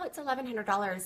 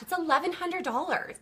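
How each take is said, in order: First: The price is said in a hesitant, unsure tone. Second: The price is said in an excited, upbeat tone. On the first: The price seems too expensive. The speaker calls it wrong. "don't say, well" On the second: The price is a great deal. The speaker calls it right. "Say, oh my gosh, ... Isn't that amazing? You want to build that up"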